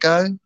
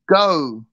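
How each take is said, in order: First: The O vowel is short and quick. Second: The O vowel is drawn out and lingered on. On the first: "apparently American people just go go or something" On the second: "English people go go, and they linger on the O"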